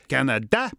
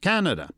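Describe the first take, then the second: First: The stress is on the third syllable. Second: The stress is on the first syllable. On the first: This is the French-speaking pronunciation. "emphasis on the third syllable" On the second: This is the English-speaking pronunciation. "they pronounce it Canada"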